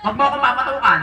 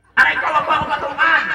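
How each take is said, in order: First: Said in the usual way. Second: Higher-pitched playful complaint; mock pained protest. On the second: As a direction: protest as if just bonked. Pretend pain after being hit. (kunwaring nasaktan na reklamo)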